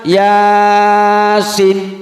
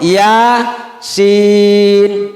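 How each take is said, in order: First: It is said run together as one word. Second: It is said as two separate letter names. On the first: The speaker calls it wrong. "jangan dibaca yasin" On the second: The speaker calls it right. "Atau ya sin"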